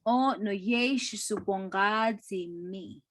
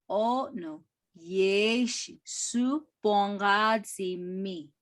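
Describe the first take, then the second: First: Said in the usual way. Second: Slow, careful repeat of "O no yeshi su bongazi mi"; slower repeat. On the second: Shown as a demonstration. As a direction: say it again slowly for the students. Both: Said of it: "repeated slower".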